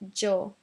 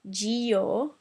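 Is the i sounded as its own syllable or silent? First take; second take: silent; separate. First: The i is silent, giving one syllable. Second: The i is sounded as a separate syllable. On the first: The speaker calls it right. "just one one syllable" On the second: The speaker calls it wrong. "it's not Gio"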